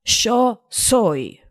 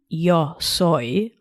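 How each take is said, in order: First: Neutral Spanish accent, not Argentine; non-Argentine Spanish accent. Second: Standard Spanish yo soy, a clean y sound; non-Argentine Spanish accent. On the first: Podcast host demos Spanish for listeners, neutral Spanish accent. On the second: Host shows textbook Spanish to her listeners, neutral accent. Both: Shown as a demonstration. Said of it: "in a not Argentine accent".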